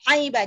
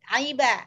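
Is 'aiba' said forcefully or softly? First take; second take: forcefully; softly. First: The sound is pressed out with force. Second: The sound is produced gently and softly. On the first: The speaker calls it wrong. "Jangan ditekan, jangan aiba" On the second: The speaker calls it right. "Lembut, aiba, tengah"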